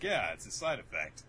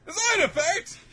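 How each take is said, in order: First: Said in the usual way. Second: Very high, loud rising squeal; mock shocked echo. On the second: Attackers echoing Murakami's explanation, mock shocked squeal. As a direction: squeal it back, hammed-up disbelief.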